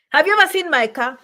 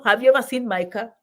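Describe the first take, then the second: First: Louder, rising push on ever; emphatic repeat. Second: Said in the usual way. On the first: Shown as a demonstration. Asking her viewers about her car, ever pushed louder. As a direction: hit ever harder the second time.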